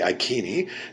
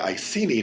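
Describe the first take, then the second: First: The C is said as a K sound. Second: The C is said as an S sound.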